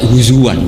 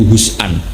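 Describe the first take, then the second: First: A w sound links the middle syllables. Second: A glottal stop is in the middle. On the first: This is the Quraysh dialect form. "itu pakai huzuwan, pakai wawu" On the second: This is the standard Arabic form. "Yang ada itu hazaa ya hazau hus'an"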